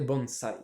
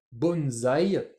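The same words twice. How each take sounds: First: BONSAI with an s, lower; Japanese bonsai. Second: BONSAÏ drawn out with a z; French bonsaï. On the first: Teacher giving the correct Japanese, BONSAI with an s. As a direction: keep BONSAI's S as s, never z. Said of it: "qui se prononce bien en japonais". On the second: Teacher quoting the French word, BONSAÏ with a z sound. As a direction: say BONSAÏ as bonn-zaï. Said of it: "ça devrait se prononcer bonsaï". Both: Shown as a demonstration.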